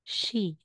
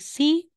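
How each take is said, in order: First: The syllable begins with an sh sound. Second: The syllable begins with a plain s sound. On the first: The speaker calls it right. "magiging she" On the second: The speaker calls it wrong. "Hindi mo siya babasahing si"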